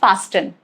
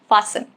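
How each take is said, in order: First: A T sound is heard in the middle. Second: No T sound is heard in the middle. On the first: The speaker calls it wrong. "It's not fasten, incorrect" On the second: The speaker calls it right. "silent in words ending in S T E N"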